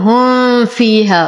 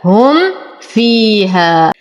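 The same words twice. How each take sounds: First: The m is blurred and nasalized into the f. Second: The m is closed fully and distinctly before f. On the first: The speaker calls it wrong. "فلا أقول هم فيها، وهذه من الأخطاء الشائعة، أنتبه أن لا أقرأه بالإخفاء" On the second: The speaker calls it right. "أظهر الميم وأظهر الفاء"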